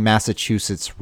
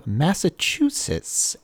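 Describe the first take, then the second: First: Said in the usual way. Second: Slow, over-enunciated "Massachusetts"; over-pronounced. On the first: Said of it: "I feel like I'm saying". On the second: Real, not acted. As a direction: stretch "Massachusetts" out syllable by syllable with too much care. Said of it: "saying Massachusetts wrong. Like, I'm over-pronunciating it".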